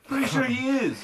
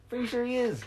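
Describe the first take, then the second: First: High, loud imitating show host. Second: Much higher mock show-host voice. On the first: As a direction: echo the host voice to mock it. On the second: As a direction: tease like a game show host.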